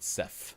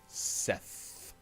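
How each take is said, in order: First: The name ends without a th sound. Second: The name ends with a th sound. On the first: The speaker calls it wrong. "not Seth" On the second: The speaker calls it right. "Seth with a T H sound at the end"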